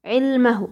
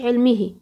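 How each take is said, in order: First: علمه said with a final u, ʕilmuhu; علمه ending clearly in -uhu; correct ending. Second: علمه said with a final i, ʕilmihi; the wrong way: علمه ending in -ihi; wrong vowel. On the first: Teacher gives the right ending of علمه as ʕilmuhu. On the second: Teacher warns the student: علمه wrongly said as ʕilmihi. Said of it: "ما تقوليش علمه". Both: Shown as a demonstration.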